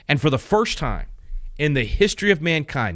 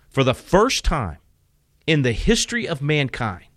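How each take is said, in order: First: It is said at normal speaking speed. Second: It is said slowly and deliberately.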